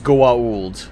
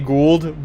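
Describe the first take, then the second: First: The name is said with a break between vowels. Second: The name is said as one smooth syllable. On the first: This is the name's real pronunciation. The speaker calls it right. "the actual pronunciation is Goa'uld" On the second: This is how the human characters say it. The speaker calls it wrong. "the human characters in the series say Gould"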